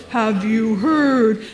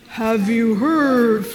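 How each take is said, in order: The two takes are said the same way.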